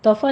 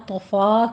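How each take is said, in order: First: طفا with a rounded heavy vowel; wrong version. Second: طفا with an open a; correct version. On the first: Teacher warns against the wrong vowel. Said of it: "طفا نہیں کہنا". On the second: Teacher gives the right طفا. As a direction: say طفا openly. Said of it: "طفا کہنا ہے". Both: Shown as a demonstration.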